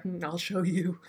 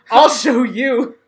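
First: Quiet threat. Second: Slow, louder, drawn-out declaration; loud defiant vow. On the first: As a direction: say it softly, like a private promise of revenge. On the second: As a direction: shout it slowly, like a battle cry. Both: Retold or imitated. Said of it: "And I was like".

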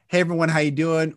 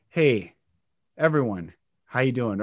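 First: Brisk run-on greeting; quick cadence. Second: Low greeting with pauses between phrases; slow, broken cadence. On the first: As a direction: rattle the greeting off in one go. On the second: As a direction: pause after each phrase, keep it low. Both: Shown as a demonstration.

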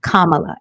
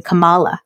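First: KAMALA as KAH-muh-la; correct Kamala. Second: KAMALA as kuh-MAH-la; mispronounced Kamala. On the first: Apologizing and giving the right name, correct Kamala. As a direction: say Kamala with the first syllable stressed. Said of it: "it's definitely not that". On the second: Apologizing for what she used to say, mispronounced Kamala. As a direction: say Kamala with the middle syllable stressed. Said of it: "I think I was saying". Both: Shown as a demonstration.

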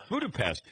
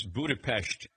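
First: Budapest with an ordinary s before the t; plain pronunciation. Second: Budapest ending in a sh-t sound; native-style pronunciation. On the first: Daughter correcting her brother, plain s in Budapest. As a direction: say Budapest the everyday English way, with s. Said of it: "And she goes". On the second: Son showing how he pronounces it, Budapest with sh. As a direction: say Budapest as Buda-pesht. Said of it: "How do you pronounce this word?". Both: Retold or imitated.

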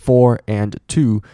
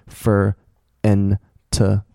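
First: "for and to" slow with full vowels; each of "for and to" said clearly; full forms. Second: "for and to" as "fur, en, tuh"; short weak vowels in "for and to"; reduced forms. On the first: Teacher contrasts with weak forms, full "for and to". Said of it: "你在念快的时候，". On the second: Teacher shows weak forms, "fur, en, tuh". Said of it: "它变轻读的时候，". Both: Shown as a demonstration.

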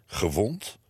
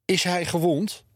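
First: Lower, puzzled one-word question; questioning echo. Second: High, alarmed question, as if panting. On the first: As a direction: echo it back, taken aback. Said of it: "vroegen, eh, meneer en mevrouw Lomans". (verbaasd, vragend herhaald) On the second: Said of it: "hijgde tante Sientje". (hijgend, hoog en geschrokken) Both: A narrator's reading.

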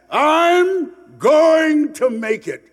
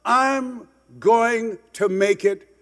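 First: High, loud, slow triumphant cry; rising to a shout. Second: Slow, deliberate promise to himself; slow resolve. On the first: Speaker rallying the audience with his dream, loud and high. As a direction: belt it out like a vow to the world. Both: Retold or imitated. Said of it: "When you say to yourself".

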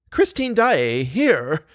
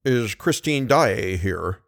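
First: Richard echoes "here" high and startled; surprised echo. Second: Said in the usual way. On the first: A narrator's reading. Manager echoing the commissary, startled. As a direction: echo the question back in disbelief. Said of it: "echoed Richard".

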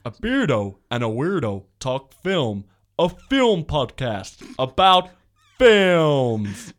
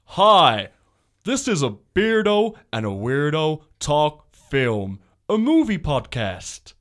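First: Slow, loud trailer boom; drawn-out announcer read; movie trailer voice. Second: Slow, booming trailer narrator; movie trailer voice. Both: Pretend. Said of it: "should I do my movie voice?".

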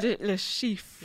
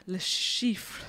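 First: "Le Chiffre" again in French, lə ʃif, on request; French name again. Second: "Le Chiffre" said in French, lə ʃif; careful French "Le Chiffre"; French name. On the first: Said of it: "say it again". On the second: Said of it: "Say it again". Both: Shown as a demonstration.

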